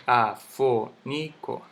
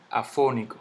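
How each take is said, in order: First: Afónico split as a-fó-ni-co; syllable by syllable. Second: Said in the usual way. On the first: Shown as a demonstration. Teacher sounding out the word for students, slow separate syllables. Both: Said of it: "La misma palabra".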